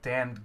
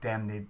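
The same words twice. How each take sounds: First: The word is said the ordinary modern way. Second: The word is said the older, period way. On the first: "most people tend to modernize that" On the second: "Actually, it would be pronounced like"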